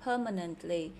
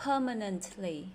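Both takes have the same delivery.

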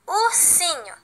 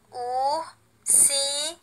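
First: Said in the usual way. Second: "Ursinho" very slow and soft, split into pieces; syllable by syllable. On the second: Shown as a demonstration. Teacher repeats it once more for pupils, syllable by syllable. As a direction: stretch each syllable of "Ursinho", with gaps between. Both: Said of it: "bem devagar cada pedaço dessa palavra".

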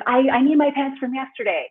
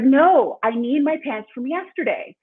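First: Imitating her three-year-old. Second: Put-on loud stubborn child's no, pitched up; imitating a defiant toddler. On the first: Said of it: "he's like". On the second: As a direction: play the three-year-old digging in his heels. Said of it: "And he's like".

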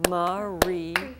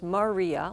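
First: "Maria" split into three separate, drawn-out beats; beaten-out syllables. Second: Said in the usual way. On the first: Shown as a demonstration. Teacher beats out a student's name, saying "Maria" in separate syllables. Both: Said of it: "Let's beat out your name".

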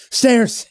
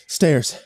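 First: High, loud burst of relief; excited realization. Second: Said in the usual way. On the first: Acted. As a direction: seize on it with hope. Realizing the stairs are the exit.

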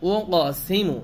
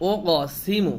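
Both takes have the same delivery.

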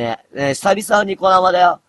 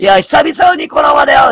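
First: Said in the usual way. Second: "久々" called out high and loud; excited shout. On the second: Real, not acted. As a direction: shout the greeting to the whole stream. Greets viewers on his stream. (高い声で叫ぶように「久々のニコ生だよ」)

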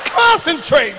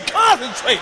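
First: Loud first call. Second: Said in the usual way. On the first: Acted.

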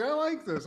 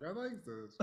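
First: Excited approval. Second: Softly savoring it. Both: Retold or imitated. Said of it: "I was like".

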